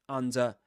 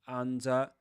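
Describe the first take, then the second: No difference in how they are said.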